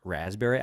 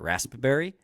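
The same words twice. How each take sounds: First: The P sound in the middle is silent. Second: The P sound in the middle is clearly pronounced.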